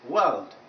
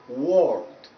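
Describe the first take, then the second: First: The vowel is a long central 'er' sound. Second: The vowel is a rounded 'or' sound. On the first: The speaker calls it right. "it's A. That's why it is world, world, a bit longer with this" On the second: The speaker calls it wrong. "not world. When you pronounce it as world, you are replacing this vowel sound with vowel number seven, which is O"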